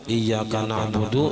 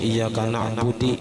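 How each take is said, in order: First: The phrase ends with a 'u' vowel. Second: The phrase ends with an 'i' vowel. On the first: The speaker calls it right. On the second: The speaker calls it wrong.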